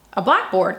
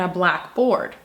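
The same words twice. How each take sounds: First: "blackboard" as one word, stressed on "black"; compound-word stress. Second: "blackboard" split into "black board", both words stressed; two-word stress. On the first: Teacher showing English inflection changes meaning, "blackboard" stressed on first half. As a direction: punch "black" in "blackboard", let "board" drop. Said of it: "think of inflection in English".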